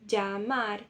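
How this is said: The double L sounds like dj. This is the accent of some other countries. "uma terceira pronúncia possível, né? Que é o som de D J"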